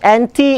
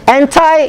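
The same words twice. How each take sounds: First: It is said with a Malay pronunciation. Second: It is said with an English pronunciation. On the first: "Anti is Malay" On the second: "Anti is English"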